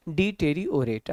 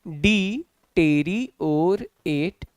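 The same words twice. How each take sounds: First: "डी टेरी और एट" joined into one smooth word; syllables blended. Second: "डी टेरी और एट" very slow, each syllable held apart. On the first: Teacher showing it reads easily, "डी टेरी और एट" blended. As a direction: run "डी टेरी और एट" together without gaps. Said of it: "आपको आसानी से पढ़ने में बनेगा". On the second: Teacher showing easier pronunciation, "डी टेरी और एट" slowly split. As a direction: stretch out all four pieces of "डी टेरी और एट". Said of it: "शब्द का उच्चारण आसान हो जाता है". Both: Shown as a demonstration.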